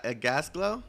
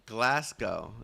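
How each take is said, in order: First: Gasglow said as gas-glow, with the L after the S; mispronounced name. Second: Glasgow said as glas-go, with the L after the G; corrected name. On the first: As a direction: stumble into Gasglow with the L in the wrong place. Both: Real, not acted. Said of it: "You dropped the L on accident?".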